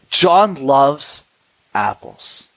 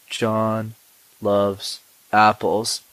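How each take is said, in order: First: The phrase mixes quick and slow parts. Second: The phrase is said at one even pace. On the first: The speaker calls it right. "notice how I went quickly and slowly" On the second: The speaker calls it wrong. "they're both wrong"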